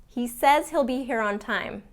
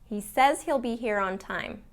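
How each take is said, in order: The two takes are said the same way.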